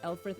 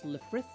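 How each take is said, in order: First: The name begins with an 'el' sound. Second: The name begins with a 'le' sound. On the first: The speaker calls it wrong. "It's not Elfrith" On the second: The speaker calls it right. "it's Lefrith"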